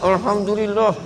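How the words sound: It is said grudgingly, with anger.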